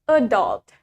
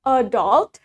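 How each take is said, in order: First: "adult" as a-DULT, low and falling; American stress on second syllable. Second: "adult" as AD-ult, ending on a rise; British stress on first syllable. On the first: Teacher contrasting accents, American "adult" stressed on second syllable. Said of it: "In American". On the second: Teacher contrasting accents, British "adult" stressed in front. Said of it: "In British". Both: Shown as a demonstration.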